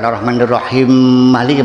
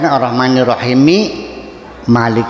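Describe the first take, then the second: First: The 'm' merges straight into Malik. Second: An 'i' vowel links Rahim to Malik. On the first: The speaker calls it wrong. "bukan diidghamkan" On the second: The speaker calls it right.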